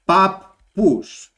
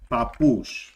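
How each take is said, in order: First: The middle p sound is held long. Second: The middle p sound is short. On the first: This is the Cypriot way, matching the spelling. The speaker calls it right. "in Cyprus, they pronounce it as, and this is the correct way" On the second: This is the ordinary Greek way. The speaker calls it wrong. "as if it has one P over here"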